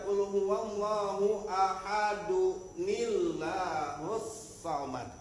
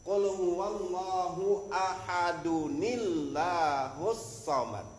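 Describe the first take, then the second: The two takes are said the same way.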